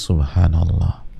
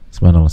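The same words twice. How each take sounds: First: It is said slowly and clearly. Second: It is said fast and slurred.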